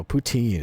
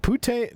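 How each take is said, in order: First: "poutine", second syllable rhyming with seen; corrected pronunciation. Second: "putane", second syllable rhyming with rain; mispronounced word. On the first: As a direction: say "poutine" with a TEEN ending. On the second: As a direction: say "putane" with a TANE ending. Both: Shown as a demonstration. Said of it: "No, poutine is a food".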